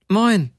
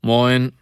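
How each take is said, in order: First: High-pitched chirped greeting, falling at the end; much higher woman's reply; two tones higher. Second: Rough-voiced one-word hello. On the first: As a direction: answer far higher than a gruff hello. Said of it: "zwei volle Töne höher". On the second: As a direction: say it roughly, like a tired stoker. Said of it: "eine ziemlich raue Stimme sagte". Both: A narrator's reading.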